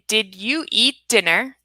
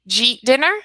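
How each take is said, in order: First: Each word before 'dinner' is said separately and fully. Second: 'Did you eat' merges into one syllable, 'jeet'. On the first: "That's a four sounds in a sentence" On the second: "to two. ... That's what you'll hear from a native speaker"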